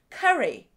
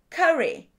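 Both takes have the same delivery.

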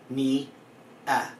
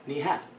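First: A glottal stop separates the two vowels. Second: An h sound separates the two vowels. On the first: The speaker calls it wrong. "There's a glottal stop here. It makes it hard to say" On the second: The speaker calls it right. "They added the H"

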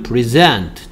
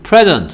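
First: The stress is on the second syllable. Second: The stress is on the first syllable. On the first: It means to give or award. "present라고 여기를 세게 읽으면 주다" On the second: It means a gift. "여기를 세게 읽어서 present라고 읽으면 선물이고요"

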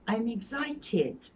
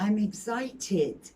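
Both takes have the same delivery.

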